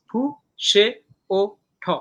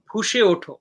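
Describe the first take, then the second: First: Four separate beats, ফু, সে, ও, ঠ; syllable by syllable. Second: Said in the usual way. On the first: Shown as a demonstration. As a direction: clear pause after each of ফু, সে, ও, ঠ. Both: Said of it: "চারটা syllable মিলে একটা পর্ব".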